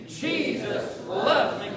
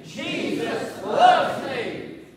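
First: Said in the usual way. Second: Loud, high, drawn-out proclamation; like you mean it. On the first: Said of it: "say it like you mean it". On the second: Shown as a demonstration. Preacher leading the congregation in saying it, like he means it. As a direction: belt it out slowly with full conviction. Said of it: "Come on and say it like you mean it".

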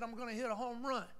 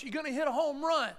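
First: Said in the usual way. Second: Louder and higher, full of conviction; ringing voice. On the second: Retold or imitated. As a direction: let it ring out with confidence. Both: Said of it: "when I heard that voice".

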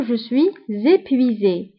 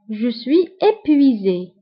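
First: "suis épuisé" linked with a Z, "swee-zépuisé"; with liaison. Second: "suis épuisé" unlinked, no Z before the E; without liaison. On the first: Teacher showing learners the link, "suis épuisé" joined by Z. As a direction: slowly carry a Z into the start of "épuisé". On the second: Teacher introducing the word, "suis épuisé" without liaison. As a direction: slowly say "épuisé" starting on a bare vowel. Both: Shown as a demonstration. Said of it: "فهنا كنقوموا بلا ليزون".

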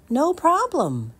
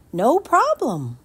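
First: Put-on eager boy. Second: Put-on cheerful boy. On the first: Jameson answers mother. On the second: Jameson repeats.

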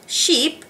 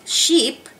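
Both takes have the same delivery.

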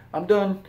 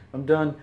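First: "I'm done" high and loud, bright exclamation; excited exclamation. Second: Lighter repeat. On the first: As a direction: toss it out cheerfully, done and happy. Exclaimed cheerful sign-off. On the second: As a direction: echo the exclamation more lightly. Repeated a bit lower. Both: Real, not acted.

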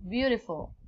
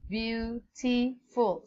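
First: Said in the usual way. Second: "Beautiful" slowed right down as beau - ti - ful; broken into syllables. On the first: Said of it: "three sounds in this word". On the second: Shown as a demonstration. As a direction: sound out the three parts of "Beautiful". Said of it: "there are three sounds in this word".

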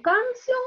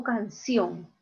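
First: "canción" misstressed as CAN-cion; stress on first syllable. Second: "canción" with the weight on final CIÓN; stress on last syllable. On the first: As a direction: say "canción" wrongly, weight on CAN instead of ción. ("canción" con la fuerza en CAN: CÁN-cion) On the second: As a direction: say "canción" as can-CIÓN, landing on the ending. ("canción" con la fuerza al final: can-CIÓN) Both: Shown as a demonstration. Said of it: "Yo digo canción o canción".

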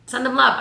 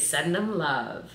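First: "Send them love" higher and louder, punching "love"; emphatic repeat. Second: Said in the usual way. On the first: Shown as a demonstration. Repeating advice to viewers, higher and louder with stress on "love". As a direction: hammer the advice home.

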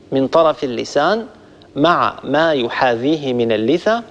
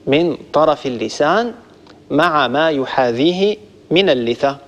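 No difference in how they are said.

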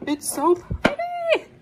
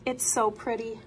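First: High, slow squeal of delight; gushing squeaky voice. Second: Said in the usual way. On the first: Acted.

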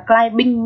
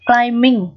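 First: "climbing" with a sounded B, klai-bing; B wrongly pronounced. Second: "Climbing" with only an M in the middle, no B; silent B. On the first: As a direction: voice the B in "climbing" as a learner's mistake. (đọc sai "climbing" thành klai-bing, bật âm B) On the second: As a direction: say "Climbing" as klai-ming. (đọc "Climbing" là klai-ming, không có âm B) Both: Shown as a demonstration. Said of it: "chứ đừng đọc là climbing nhá".

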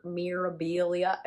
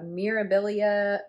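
First: Put-on slow, faintly accented Mirabilia; odd accent. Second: Said in the usual way. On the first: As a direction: say Mirabilia with a stray foreign lilt. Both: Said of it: "I don't know where that accent comes from".

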